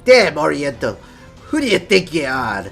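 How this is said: It is said in a put-on pirate voice.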